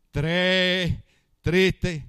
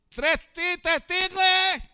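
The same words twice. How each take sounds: First: "Tres, tristes" said slowly, one word at a time, R sounded; careful correct repetition. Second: "Tres tristes tigres" high and drawn out, losing its Rs; botched tongue twister. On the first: Husband practising for his wife, careful R in "tres tristes". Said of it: "Las dos primeras veces me salía bien". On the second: Husband fails once at the microphone, high botched pronunciation. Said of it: "cuando agarraba el micrófono". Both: Retold or imitated.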